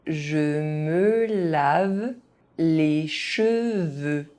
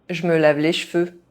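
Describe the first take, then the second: First: It is said at an ordinary speaking pace. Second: It is said fast, with some sounds dropped. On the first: This is the pace learners should use. "at a normal pace" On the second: This is how native speakers say it. "fast, as a native speaker would do"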